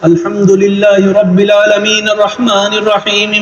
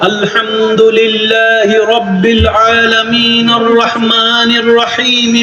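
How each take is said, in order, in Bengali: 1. শব্দগুলো একটু ধীরে পড়া হচ্ছে। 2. শব্দগুলো খুব ধীরে পড়া হচ্ছে। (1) "একটু স্লো কইরা পড়ো" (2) "আরেকটু স্লো স্লো করে পড়লে"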